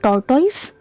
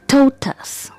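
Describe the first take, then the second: First: The stress is not on the first syllable. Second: The stress is on the first syllable. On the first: The speaker calls it wrong. "it's incorrect pronunciation" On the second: The speaker calls it right. "the stress is on the first syllable"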